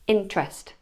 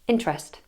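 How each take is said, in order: First: The unstressed middle vowel is dropped entirely. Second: The same.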